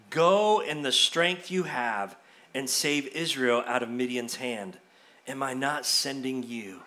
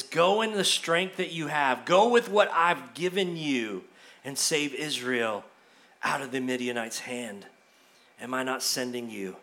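First: Low, soft and measured; a hushed, weighty divine command; solemn voice of God. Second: Low, soft and grave, fading lower; a quiet, weighty divine answer; solemn voice of God. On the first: God's voice, quoted to Gideon. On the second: God's reply repeated. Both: Acted.

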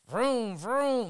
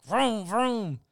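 First: High vroom vroom engine noise; a lightly voiced toy-car vroom; mock engine vroom. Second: High, breathy-free vroom vroom in a put-on voice; a mild mock engine sound. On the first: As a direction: imitate a dubbed car engine. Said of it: "he opened his mouth, and it was like". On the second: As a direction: mimic the car noise once more. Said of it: "He just opened his mouth, and it was like".

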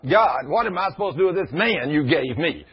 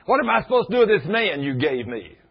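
First: Higher, louder fussing at God; mock exasperated wife; exasperated complaint. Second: High, loud exasperated cry; mock the wife venting at God, full tilt; hammed-up exasperated wail; fussing wife. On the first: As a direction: imitate the fed-up wife venting upward. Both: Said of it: "she's fussing and at me and at God".

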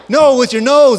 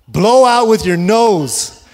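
First: Sharp, loud, higher shout; irritated shout. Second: Slow, firm, spelled-out instruction. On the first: Father yelling at his daughter after she sniffs in, exasperated shout. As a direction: snap it out, exasperated. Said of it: "and I'm getting more irritated". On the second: Father slowly instructing his daughter, firm and deliberate. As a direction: drag each word out for a toddler. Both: Retold or imitated.

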